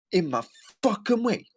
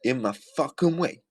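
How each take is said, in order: First: Very high, hammed-up gripe; exaggerated mocking mimicry. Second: High, mocking copy of her complaint; mocking mimicry. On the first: Repeating her clip for listeners, shrilly mocking. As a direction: push the imitation way up, leaning on FUCKING. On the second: Repeating her clip for listeners, mockingly high. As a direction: imitate her griping, pitched up.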